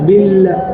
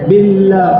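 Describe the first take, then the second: First: The L is made with the tongue further back. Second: The L is made with the tongue forward. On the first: The speaker calls it right. "உள்ள உள்ள வச்சு சொல்லணும்" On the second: The speaker calls it wrong. "நாக்கு முன்னாடி வரக்கூடாது"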